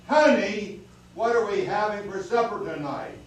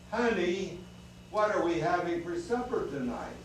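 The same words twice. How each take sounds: First: It is said very loudly. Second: It is said a little louder.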